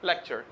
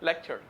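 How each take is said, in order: No difference in how they are said.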